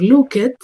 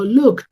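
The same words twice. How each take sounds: First: The ending is said as a separate 'id' syllable. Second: The ending is said as a short 't' sound. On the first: The speaker calls it wrong. "yo no puedo pronunciar looked" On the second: The speaker calls it right. "con esa T al final"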